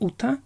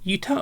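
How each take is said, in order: First: The name begins with a plain vowel. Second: The name begins with a Y sound. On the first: The speaker calls it right. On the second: The speaker calls it wrong.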